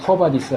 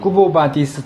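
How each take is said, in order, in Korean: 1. 첫 음절은 'kwuh'처럼 들려요. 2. 첫 음절은 'kwo'처럼 들려요. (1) "영어식으로 쿠어바디스 한 거지만" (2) "원래는"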